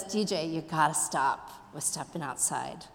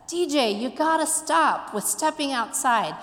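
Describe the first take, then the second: First: Low, soft teacher's reply; acted teacher conceding in a hushed, low voice; teacher relenting. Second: Higher-pitched teacher telling a student off; lightly acted insistent teacher; teacher's admonishment. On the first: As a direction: give in quietly, pitched well down. Teacher concedes, repeats her warning, retold. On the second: Teacher scolds student in retold story.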